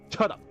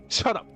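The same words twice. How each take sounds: The two takes are said the same way.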